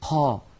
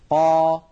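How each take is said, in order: First: Air flows out along with the q sound. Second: The q sound is held with no air escaping. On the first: The speaker calls it wrong. "يجعلون كمية من الهواء تتدفق مع صوت القاف المتحركة" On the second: The speaker calls it right. "اسمعوا جيدا لو تكرمتم"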